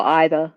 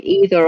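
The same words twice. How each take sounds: First: "either" opening like the word eye; EYE-ther pronunciation. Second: "either" opening with a long ee; EE-ther pronunciation. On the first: Listing random words said differently, "either" said EYE-ther. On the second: Listing random words said differently, "either" said EE-ther. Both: Shown as a demonstration. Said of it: "sometimes we'll say differently".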